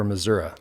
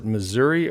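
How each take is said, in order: First: "Missouri" with a final uh sound; Missouri ending in -uh. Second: "Missouri" with a final ee sound; Missouri ending in -ee. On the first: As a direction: say "Missouri" as mih-ZUR-uh. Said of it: "Missouri or Missouri". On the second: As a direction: say "Missouri" as mih-ZUR-ee. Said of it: "Do you pronounce it". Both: Shown as a demonstration.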